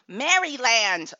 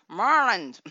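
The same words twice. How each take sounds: First: It is said the way an Ohioan says it. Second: It is said the way Baltimore locals say it.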